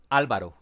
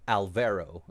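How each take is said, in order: First: The name is said with a Spanish pronunciation. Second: The name is said with an American pronunciation. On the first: "That's how you say it in Spanish" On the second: "if you are an American, you would say"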